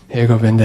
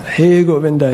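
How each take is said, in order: First: The call sounds casual and mechanical. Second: The call sounds heartfelt and desperate. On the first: The caller just wants to be done. The speaker calls it wrong. "But it wasn't like" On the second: The caller truly longs for help. The speaker calls it right. "She was chanting from her heart with desperation"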